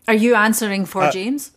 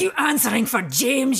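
First: It is said in a neutral, calm accent. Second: It is said in an angry Scottish accent.

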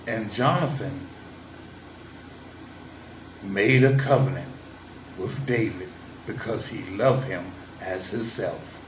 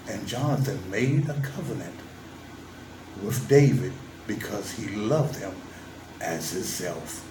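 First: It is read in a put-on character voice. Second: It is read in a normal speaking voice.

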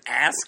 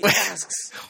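First: The word ends without a final s sound. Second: The word ends with a final s sound. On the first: The speaker calls it wrong. "he doesn't ask" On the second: The speaker calls it right. "he asks"

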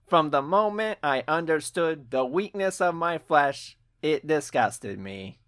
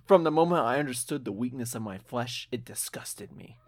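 First: It is said in a put-on robotic Cyberman voice. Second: It is said in the speaker's normal voice.

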